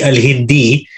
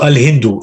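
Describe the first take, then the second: First: "Al-Hindi" ending in an ee vowel; i ending after preposition. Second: "Al-Hindu" ending in an oo vowel; default u ending. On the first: Teacher explains the rule to student, "Al-Hindi" with i ending. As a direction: say "Al-Hindi" with a final i for u. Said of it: "it will only be Al-Hindi if there's a min". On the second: Teacher answers student's question on the country name, "Al-Hindu" with default u ending. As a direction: say "Al-Hindu" with a final short u. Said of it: "you would say Al-Hindu by default". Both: Shown as a demonstration.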